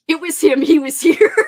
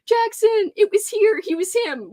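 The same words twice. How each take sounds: First: Said in the usual way. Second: High, rushed reading that trips over the words; fumbled speed read. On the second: Real, not acted. Reading a viewer's comment aloud, rushing and fumbling. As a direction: rattle it off too fast and stumble. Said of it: "Oh, I can't speak".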